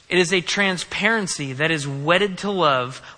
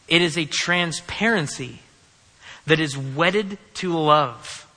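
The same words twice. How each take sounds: First: It is read quickly. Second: It is read more slowly.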